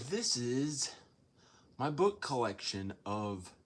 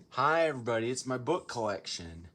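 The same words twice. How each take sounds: First: Said in the usual way. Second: Put-on a so-so English accent, cheerfully hosting. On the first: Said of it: "I don't know how to do an English accent". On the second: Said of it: "I don't know how to do an English accent that".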